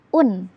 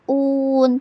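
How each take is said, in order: First: The vowel is short and clear. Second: The vowel is drawn out long. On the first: The speaker calls it right. "harus jelas dan pendek" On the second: The speaker calls it wrong. "tidak boleh un"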